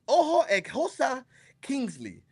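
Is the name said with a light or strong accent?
light. The name is said with a light accent.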